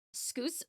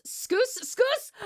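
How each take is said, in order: First: Scoose said with a long oo; misreading scouse. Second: Scoose, scoose? rising high and unsure; puzzled sounding out. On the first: Streamer sounding out a chat word: scoose with a long oo. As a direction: reads scoose with a long oo, like goose. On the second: Streamer puzzling over a chat word: scoose? rising. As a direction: tries scoose again, pitch climbing in doubt. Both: Shown as a demonstration. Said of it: "Oh, scouse".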